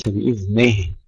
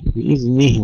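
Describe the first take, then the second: First: بإذنه with the nun sagging to "neh"; wrong slack kasra. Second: بإذنه with a pure "ni" on the nun; clear kasra. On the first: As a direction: open the i after ن in بإذنه towards e. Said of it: "وليس بإذنه". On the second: Teacher models correct Arabic, clear kasra. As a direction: keep a true i after the ن in بإذنه. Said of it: "كسر النون، حافظ على كسر النون". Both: Shown as a demonstration.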